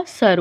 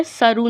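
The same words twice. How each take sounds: First: सर ending on a plain r; no "oo" after the r in सर; stopped ending. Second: सरू with "oo" after the r; wrong "u" ending. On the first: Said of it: "सर होगा". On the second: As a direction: finish सरू on an open "roo". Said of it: "सरू नहीं होगा". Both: Shown as a demonstration.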